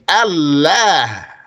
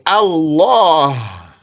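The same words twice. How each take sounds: First: The L sound is light and thin. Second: The L sound is heavy and full. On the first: The speaker calls it wrong. "you're not going to say Allah" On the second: The speaker calls it right. "You're going to say Allah to glorify the expression"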